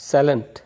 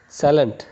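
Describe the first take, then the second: Both takes have the same delivery.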